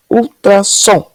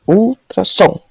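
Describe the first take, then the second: First: Ultrassom said slowly, syllables drawn out; slow syllable test. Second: Ultrassom with the weight on the final som; stress on last syllable. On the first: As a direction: stretch Ultrassom to test the stress. (ultrassom bem devagar, testando a tônica) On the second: (tônica na última sílaba: ultrasSOM) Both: Shown as a demonstration. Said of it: "Qual que ficou mais forte?".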